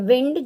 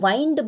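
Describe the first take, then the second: First: The vowel sounds like the 'i' in 'win'. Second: The vowel sounds like the 'i' in 'find'. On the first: It means moving air. "इसे pronounce करते हैं विंड, जिसका मतलब होता है हवा" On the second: It means to wrap something around. "इसे हम वाइंड भी प्रोनाउंस करते हैं"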